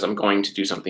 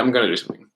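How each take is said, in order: First: Going to is said as two full words. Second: Going to is reduced to gonna. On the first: The speaker calls it wrong. "Really, the word is going to, but no one says" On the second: The speaker calls it right. "You say ... gonna"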